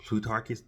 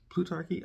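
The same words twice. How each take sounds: First: Said in the usual way. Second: "Plutarchy?" asked with a high rising tune; unsure question. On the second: Shown as a demonstration. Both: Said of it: "I don't even know what to call them".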